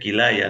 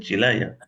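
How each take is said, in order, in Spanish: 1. La palabra empieza con un sonido 'k'. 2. La palabra empieza con un sonido 'ch'. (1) "Se dice Quilaya" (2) "no se dice Chilaya"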